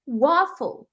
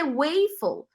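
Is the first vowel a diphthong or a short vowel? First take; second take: short vowel; diphthong. First: The first vowel is a short plain vowel. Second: The first vowel is a gliding diphthong. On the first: The speaker calls it right. "mas waffle" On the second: The speaker calls it wrong. "não pode ser waffle, porque tem duas consoantes iguais"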